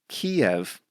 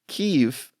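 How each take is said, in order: First: The name is said close to Russian. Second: The name is said close to Ukrainian. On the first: It is the form many people grew up with. "more aligned with the Russian pronunciation" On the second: It follows what local people want to be called. "close to what they say in Ukrainian"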